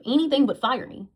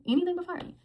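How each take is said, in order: First: Said in the usual way. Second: Repeats it much higher and sarcastic; mocking high echo. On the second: Vlogger mocking her boss's excuse, high mocking echo.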